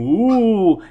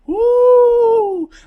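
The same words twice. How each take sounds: First: It is a lower, cartoon-style ghost sound. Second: It is a higher pitched, ghostly wail.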